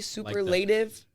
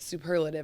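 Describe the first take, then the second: First: The word is said closely following its spelling. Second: The word is said differently from its spelling. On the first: "That's like the spelling of it" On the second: "I think is how it's supposed to be pronounced"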